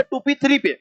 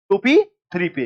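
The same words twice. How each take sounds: First: टू P three पे asked high, as a doubtful question; doubting question. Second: टू P three पे said level, with a falling close; firm answer. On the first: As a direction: push three पे up, testing the class. Teacher tests a doubtful option. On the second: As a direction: settle it: टू P three पे, confirmed. Teacher confirms the answer. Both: Shown as a demonstration.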